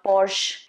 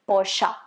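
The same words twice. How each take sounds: First: The name ends on the 'sh' sound with no vowel after it. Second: The name ends with a short vowel after the 'sh' sound. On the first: The speaker calls it wrong. "It's not supposed to be Porsche" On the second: The speaker calls it right. "It's supposed to be Porsche"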